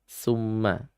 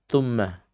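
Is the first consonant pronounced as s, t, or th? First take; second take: s; t. First: The word begins with an s sound. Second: The word begins with a t sound. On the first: "dengan bacaan summa" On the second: "menjadi tumma"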